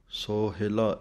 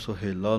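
First: It is pronounced sohila, with a short middle i. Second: It is pronounced suhela, with u and e vowels. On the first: The speaker calls it right. "ਇਸ ਤਰ੍ਹਾਂ ਪੜ੍ਹਨਾ ਹੈ" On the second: The speaker calls it wrong. "ਇਹਨੂੰ ਸੁਹੇਲਾ ਨਹੀਂ ਬੋਲਣਾ"

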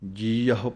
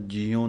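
First: The word ends with an 'ahu' sound. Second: The word ends with a short 'u' sound. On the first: The speaker calls it right. "ਜੀਅਹੁ ਪਾਠ ਪੜ੍ਹਨਾ ਹੈ" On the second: The speaker calls it wrong. "ਇਹਨੂੰ ਜੀਉ ਨਹੀਂ ਕਹਿਣਾ"

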